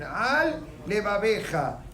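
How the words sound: A short break separates the two words. The speaker calls it right. "make sure to make an interruption"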